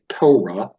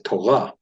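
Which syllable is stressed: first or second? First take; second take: first; second. First: The stress is on the first syllable. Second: The stress is on the second syllable. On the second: This is how the speaker's own community says it. "we would say Torah"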